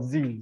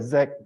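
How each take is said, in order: First: The letter is said the American way, zee. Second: The letter is said the British way, zed.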